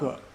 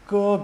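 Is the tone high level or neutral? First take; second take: neutral; high level. First: The syllable is short, light and unstressed. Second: The pitch stays high and level. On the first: "fifth tone" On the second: "first tone"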